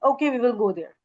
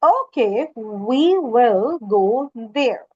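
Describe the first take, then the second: First: It is spoken quickly and softly. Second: It is spoken slowly and loudly. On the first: It is over before the listener's mind gets it. The speaker calls it wrong. "Rather than saying" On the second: The listener's mind registers that it was said. The speaker calls it right. "Volume should be high, speed slow ... So you can speak like this"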